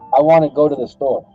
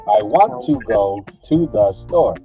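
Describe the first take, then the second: First: The words are reduced and run together. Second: Each word is carefully and fully enunciated. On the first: The speaker calls it right. "I would say" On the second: The speaker calls it wrong. "Instead of"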